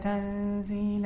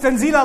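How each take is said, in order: First: The word is said softly and gently. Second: The word is said forcefully, as an exclamation. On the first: It is a plain, ordinary statement. The speaker calls it wrong. "you don't say that nicely. You don't recite" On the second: It is an exclamation spoken with great authority. The speaker calls it right. "When it's Tanzeel like that, that means that Allah Azza wa Jal is speaking with great authority"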